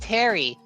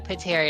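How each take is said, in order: First: The name begins with a T sound. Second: The name begins with a sounded P. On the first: The speaker calls it right. "no, it's Terry" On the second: The speaker calls it wrong. "is it Terry or Pateri?"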